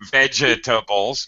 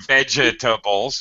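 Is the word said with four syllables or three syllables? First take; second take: four; four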